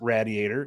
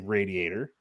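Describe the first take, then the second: First: Radiator is said in the local Pittsburgh way. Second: Radiator is said in the standard way. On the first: The speaker calls it wrong. "I will never pronounce it radiator" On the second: The speaker calls it right. "It is a radiator"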